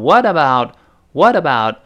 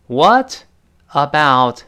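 First: "what about" run together, t softened to a quick d; linked, voiced t. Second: "What about" word by word, t unlinked; words separated. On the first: Teacher shows how "what about" links up, t voiced. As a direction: link "what about" as "whaddabout". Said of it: "about变成what about". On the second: Teacher breaks up "What about" for students, each word separate. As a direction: split "What" and "about" with a pause. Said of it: "变成what about". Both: Shown as a demonstration.

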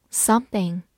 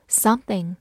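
Both takes have the same delivery.

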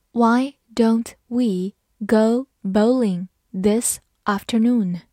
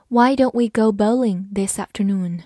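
First: Slow read. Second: Said in the usual way. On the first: Shown as a demonstration. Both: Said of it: "好，慢慢来读".

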